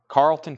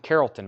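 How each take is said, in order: First: The name is said with two syllables. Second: The name is said with three syllables. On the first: "What have I been saying? Carlton?" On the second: "Carrollton, maybe"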